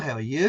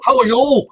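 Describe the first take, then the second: First: It has an Australian accent rising at the end. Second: It has a harsh Glasgow or Belfast accent. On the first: The greeting sounds like a question. "the Australians who raise the last syllable" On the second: The greeting sounds like an attack. "people in Belfast or Glasgow, it looks as if they're attacking you"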